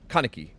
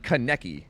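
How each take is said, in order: First: Kaneki as KAH-nuh-kee, falling from the first syllable; KANEKI her way. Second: Kaneki as kuh-NECK-ee; KANEKI the rejected way. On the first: Retold or imitated. Streamer echoing the clip, Kaneki front-stressed. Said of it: "Like, that's literally". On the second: Shown as a demonstration. Streamer ruling out a version, Kaneki stressed on the middle. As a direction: put the weight on NEK in Kaneki. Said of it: "I would say that's not".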